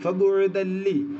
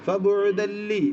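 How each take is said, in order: The two takes are said the same way.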